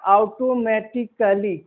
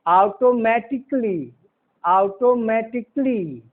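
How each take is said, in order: First: "ऑटोमेटिकली" with a full ka-lee ending; wrong pronunciation. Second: "ऑटोमेटिकली" ending in -tik-lee, no a; slow model of "ऑटोमेटिकली" with klee at the end; silent A. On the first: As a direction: slowly sound the a before "ly" in "ऑटोमेटिकली". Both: Shown as a demonstration. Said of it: "कली नहीं".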